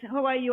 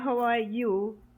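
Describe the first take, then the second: First: It is asked casually, in passing. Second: It is asked sincerely, with real interest.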